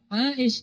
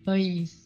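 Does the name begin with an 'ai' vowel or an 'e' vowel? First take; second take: ai; e. First: The name begins with an 'ai' vowel. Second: The name begins with an 'e' vowel. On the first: This is the original Arabic form. "panggilan Aisyah siapa? Aish" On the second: This is how Sundanese speakers adapted it. "Sampai di Sunda jadinya Eis"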